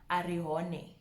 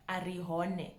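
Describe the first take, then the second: No difference in how they are said.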